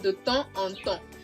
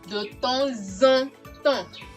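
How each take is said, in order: First: The words are said separately, without linking. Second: The words are linked together with a liaison. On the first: The speaker calls it wrong. "Instead of saying" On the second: The speaker calls it right. "you have it to be"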